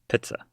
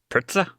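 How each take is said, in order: First: The word is said in his ordinary accent. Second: The word is said in a mock English accent.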